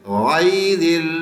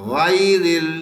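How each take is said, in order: Both takes have the same delivery.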